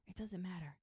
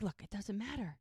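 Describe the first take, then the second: First: Much softer repeat, settling things; hushed dismissal. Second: Mildly firm, slightly softer; retold calming interjection; peacemaking interruption. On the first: Retold or imitated. Lily the peacemaker smoothing things over, quietly dismissive. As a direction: let it drop away quietly. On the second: Lily stepping in to settle the squabble, mildly firm.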